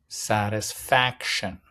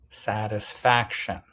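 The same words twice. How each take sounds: Both takes have the same delivery.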